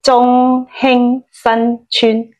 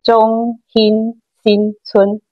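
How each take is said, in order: First: It is said in Cantonese. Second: It is said in Hakka.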